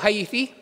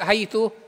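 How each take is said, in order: First: The word ends in an i vowel. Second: The word ends in an u vowel. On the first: "yaqulu haythi fa yabniha alal kasri" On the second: "damma talaga yung dulo niya"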